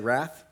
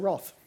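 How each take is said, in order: First: It is said with an American pronunciation. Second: It is said with an Australian pronunciation. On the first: "Americans say wrath" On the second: "but we say wrath, like the British"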